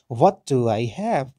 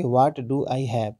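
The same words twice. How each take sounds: First: "What" hit loud, slow falling tune; slow and clear, punch "What" then let it fall; English tone. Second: Slow, "What" stressed, falling end; the earlier version, "What" stressed, slower; earlier take. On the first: Teacher asks students to note his tone, punching "What". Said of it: "आप मेरे tone पे भी ध्यान दें". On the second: Teacher recalls the earlier way of saying it, slow. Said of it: "पहले हम क्या बोल रहे थे कि". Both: Shown as a demonstration.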